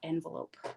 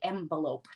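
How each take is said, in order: First: The word is said with an ordinary native pronunciation. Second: The word is said with a foreign-sounding pronunciation. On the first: This is the usual way to say it. "not envelope" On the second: This is how a particular relative says it. "she would say envelope"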